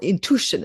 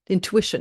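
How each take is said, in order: First: The word is said in an Indian-style way. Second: The word is said in a plain, non-Indian way.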